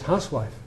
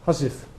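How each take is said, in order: First: Every letter is sounded, as the spelling suggests. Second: The word is shortened to two reduced syllables. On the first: This is the common way of saying it now. "Everybody says housewife" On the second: This is the older way of saying it. "But my grandfather said husif"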